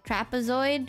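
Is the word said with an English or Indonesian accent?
English. It is said with an English pronunciation. "is that how you pronounce it in English?"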